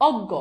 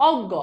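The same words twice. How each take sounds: The two takes are said the same way.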